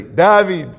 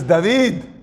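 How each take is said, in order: First: David said the Israeli way, loud and falling; Israeli pronunciation. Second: Said in the usual way. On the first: Shown as a demonstration. Storyteller correcting himself on the boy's name, Israeli pronunciation of David. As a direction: hit David firmly, as an Israeli would. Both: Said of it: "Sorry, if he's Israeli".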